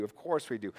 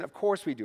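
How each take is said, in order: First: Quiet. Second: Said in the usual way. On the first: Real, not acted.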